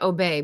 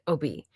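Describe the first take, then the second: First: It sounds like the English verb obey. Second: It sounds different from the English verb obey. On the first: The speaker calls it wrong. "Like it looks like obey" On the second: The speaker calls it right. "but they pronounce it Obey"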